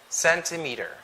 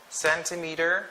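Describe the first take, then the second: No difference in how they are said.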